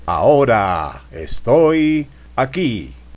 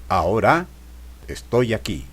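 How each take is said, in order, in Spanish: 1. Las palabras se estiran y se alargan. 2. Una palabra completa se pronuncia con fuerza extra. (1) "Alargando palabras" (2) "remarcando palabra"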